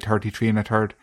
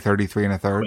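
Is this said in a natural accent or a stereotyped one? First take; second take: stereotyped; natural. First: It is said in a stereotyped Irish accent. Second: It is said in the speaker's natural Munster accent. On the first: This is how others expect the speaker to say it. The speaker calls it wrong. "I don't say" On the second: This is how the speaker really says it. The speaker calls it right. "I speak the kind of the High King of Munsters English. So I just say"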